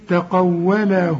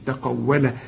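First: The final vowel is drawn out into the next word. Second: The word ends abruptly with no lengthened vowel. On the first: The reciter continues without stopping. "عند الوصل تقول إيه تقوله بل" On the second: The reciter stops at this word. "إذا وقفت بدون مد"

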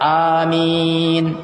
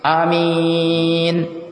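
First: The first vowel is drawn out long. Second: The first vowel is cut short. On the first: "Maka dibaca amin" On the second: "dipendekkan huruf alifnya langsung amin"

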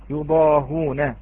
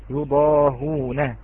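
The two takes are said the same way.

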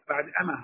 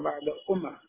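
First: The second word starts with 'a' and a single m. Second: The second word starts with 'u' and a doubled m.

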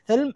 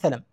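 First: The L has no vowel after it. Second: The L is followed by a short a vowel. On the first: "ولك في اللام إسكان" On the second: "والفتح"

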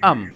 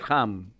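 First: The word starts with a vowel, no h sound. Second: The word starts with an audible h sound. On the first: "la H es muda" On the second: "como el idioma inglés"

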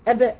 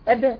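Both takes have the same delivery.

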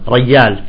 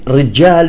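First: The word begins with a y sound. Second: The word begins with a j sound. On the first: "يستخدمون بدل الجيم الياء" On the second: "مثل كلمة رجال"

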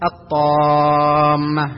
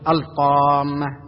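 First: The L is merged into the following T sound. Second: The L is clearly pronounced before the T sound. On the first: The speaker calls it right. "إدغام اللام الشمسية حروفها هذه الحروف نحو الطامة" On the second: The speaker calls it wrong. "لا يصح أن تقول الطامة"

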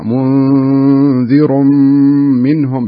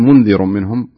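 First: The n is hidden with a held nasal hum. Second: The n has no held nasal hum. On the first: The speaker calls it right. "حاول انك تبين الغنة حركتين فيها، منذر منهم بهذا الشكل" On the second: The speaker calls it wrong. "ما تقول منذر منهم صارت انتهى ما في غنة"

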